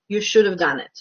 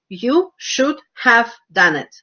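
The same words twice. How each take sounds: First: The words run together quickly, 'have' reduced. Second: Each word is pronounced fully and separately.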